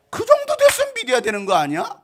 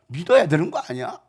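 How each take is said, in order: First: Very high, loud reproach; exasperated scolding. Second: Pointed question at normal pitch; milder reproach. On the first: Preacher scolding his flock for not believing, exasperated. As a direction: burst out in exasperation. Repeats the reproach at full force. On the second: Preacher prodding his flock to believe, mildly reproachful. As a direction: press the point without shouting. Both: Acted.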